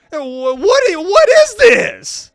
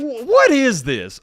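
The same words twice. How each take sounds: First: Much higher, louder, dragged-out what is this; shocked outburst. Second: Slow, high, stunned what is this; can't believe what he's reading; disbelief. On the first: A worse comment pushes him to loud shocked disbelief. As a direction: recoil at the words on screen. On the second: Reading a creepy comment to viewers, stunned disbelief. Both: Real, not acted.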